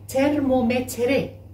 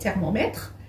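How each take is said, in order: First: The final vowel is pronounced. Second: The final vowel is silent. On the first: This is the Turkish way of saying it. "Mais dans la langue turque" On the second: This is the French way of saying it. "le E à la fin, il ne se prononce pas"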